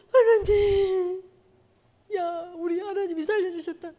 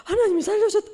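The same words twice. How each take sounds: First: Slow, high voice breaking with tears; choked-up, awed gratitude; tearful relief. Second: High, awed cry of '하나님이'; amazed exclamation. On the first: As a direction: thank God through sobs. Retold relief after the explosion. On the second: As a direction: exclaim it as a stunned churchgoer. Voicing the congregation's reaction. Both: Retold or imitated.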